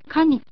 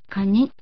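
First: The first syllable is high, the second low. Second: The first syllable is low, the second high. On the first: The speaker calls it right. "初めのカが高く後のニが低い、カニという発音で" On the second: The speaker calls it wrong. "カニではないのです"

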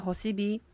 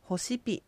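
First: The last syllable starts with a voiced b. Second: The last syllable starts with a voiceless p. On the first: "このホシピはホシビと発音しても構いません。ではホシビの形で" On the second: "何々が帰るという意味のホシピ"

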